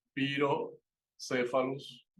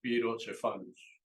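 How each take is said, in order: First: "Pirocéfalus" slowly, c as an s; Spanish-style pronunciation. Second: "Pirocephalus" with c as ch; correct Latin pronunciation. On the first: Teacher reading the name as in Spanish, Spanish-style pronunciation. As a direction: say "Pirocéfalus" as pi-ro-SE-fa-lus. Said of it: "uno pro-, se pronuncia realmente". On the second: Teacher showing how it's really pronounced, correct pronunciation. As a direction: say "Pirocephalus" as pi-ro-CHE-fa-lus. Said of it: "se pronuncia realmente". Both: Shown as a demonstration.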